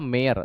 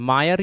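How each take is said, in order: First: The first syllable sounds like 'may'. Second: The first syllable sounds like 'my'. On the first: The speaker calls it wrong. "मायर या मेयर दोनों बोला जाता है" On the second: The speaker calls it right. "सही pronunciation मायर है"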